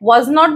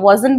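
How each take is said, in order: First: It is said as two separate full words. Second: It is said as one contracted word. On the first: The speaker calls it wrong. "এখানে was not বলবো না" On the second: The speaker calls it right. "wasn't বলবো"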